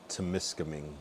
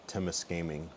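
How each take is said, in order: No difference in how they are said.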